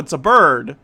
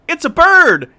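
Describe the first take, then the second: First: It is said in a flat, dismissive way. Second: It is said in an excited, exclaiming way. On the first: Seeing a bird is nothing special. The speaker calls it right. "The first two are supposed to be dismissive" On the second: Seeing a bird is thrilling. The speaker calls it wrong. "That's not the inflection it's supposed to have"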